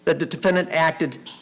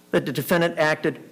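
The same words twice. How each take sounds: The two takes are said the same way.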